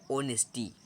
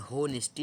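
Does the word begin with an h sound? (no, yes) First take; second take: no; yes. First: The word starts with a vowel, no h. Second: The word starts with an audible h sound. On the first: The speaker calls it right. "लेकिन अक्सर लोग पढ़ते हैं ओनेस्टी" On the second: The speaker calls it wrong. "आप भले ही पढ़ लें होनेस्टी"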